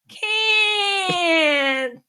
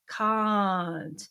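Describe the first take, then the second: First: It is said in Lena's harsh, grating voice. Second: It is said with round, cultured tones.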